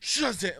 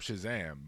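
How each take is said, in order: First: The word is said with forceful, dramatic emphasis. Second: The word is said in a casual, plain way. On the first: It is invoking the magic word. "but it's like, Shazam" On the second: It is just stating a name. "he can say, I'm Shazam"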